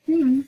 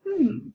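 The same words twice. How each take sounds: First: Higher, louder pondering hmm; considered doubting hmm; thoughtful hmm. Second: A higher, pondering hmm; thoughtful doubting hmm. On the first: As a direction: hum your polite doubt. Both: Acted. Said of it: "a very thoughtful pause".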